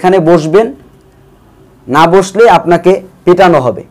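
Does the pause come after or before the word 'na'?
before. The pause falls just before the word 'na'. You must sit here or you will be beaten. "একই কথা আপনি দুইভাবে উপস্থাপন করতে পারেন"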